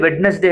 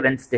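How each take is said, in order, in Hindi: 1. हर अक्षर बोला जाता है, जैसे Wed-nes-day। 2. बीच की आवाज़ें छोड़ दी जाती हैं, जैसे Wens-day। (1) "आप लिखते वेडनेसडे है" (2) "लेकिन पढ़ते वेंसडे है"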